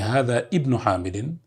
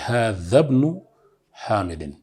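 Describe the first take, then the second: First: The i of ibn is pronounced separately. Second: Hadha runs straight into bn, the i dropped. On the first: The speaker calls it wrong. "You don't say" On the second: The speaker calls it right. "you have to say"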